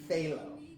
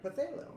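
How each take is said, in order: First: No extra vowel follows the first sound. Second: An extra vowel follows the first sound. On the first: The speaker calls it right. "we pronounce it phthalo" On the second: The speaker calls it wrong. "I'd ask for Pathalo. And they were like, what?"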